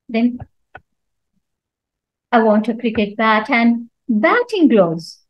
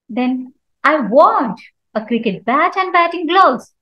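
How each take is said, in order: First: The stress falls on the word batting. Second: The stress falls on the word want. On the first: It must be batting gloves, not other gloves. "So when I stress on batting" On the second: The buyer wants to buy, not just look. "So here I'm giving stress on want"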